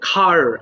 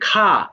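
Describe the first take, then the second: First: The final r sound is clearly pronounced. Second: The final r sound is dropped. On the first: "American people they pronounce আর letter very smartly" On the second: "লাস্টের দিকে যে আর থাকে সেই আরটাকে বাদ দিয়ে দেয়"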